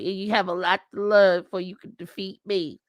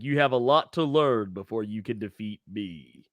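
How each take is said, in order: First: It is said in an impersonated, put-on voice. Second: It is said in a plain, game-character style voice. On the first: This is how the boxer would actually sound. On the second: This is how the line would ideally sound.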